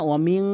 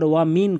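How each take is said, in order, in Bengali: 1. শেষের n দীর্ঘ এবং নাসিক্য অনুরণনসহ। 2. শেষের n ছোট ও সাধারণ। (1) "গুন্না করে বলবেন" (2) "কখনোই বলবেন না"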